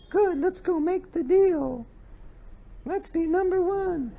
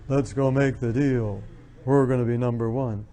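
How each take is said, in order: First: Very high, slow mock businesswoman; too-high woman's voice. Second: Lowered businesslike voice. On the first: Woman closing a business deal, voice far too high. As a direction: pitch it way up, unbusinesslike. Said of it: "if they speak too high, it sounds like a woman". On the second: Woman seeking respect at work, lowering her voice. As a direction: drop the voice to sound businesslike. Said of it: "more respected if they lower their voice". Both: Shown as a demonstration.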